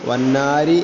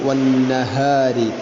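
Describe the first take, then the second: First: The middle h sound is dropped. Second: The middle h sound is clearly pronounced. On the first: The speaker calls it wrong. "വന്നാരി എന്ന് പറയരുത്" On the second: The speaker calls it right. "ഇങ്ങനെ തന്നെ പറയണം"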